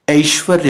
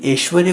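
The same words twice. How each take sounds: First: "ऐश्वर्य" starting with diphthong ai; correct pronunciation. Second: "ऐश्वर्य" starting with plain e, eshvarya; wrong pronunciation. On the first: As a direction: open "ऐश्वर्य" with a clear a-i glide. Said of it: "यानी ऐ की". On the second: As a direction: flatten the ऐ of "ऐश्वर्य" to e. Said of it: "कोई word नहीं होता है". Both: Shown as a demonstration.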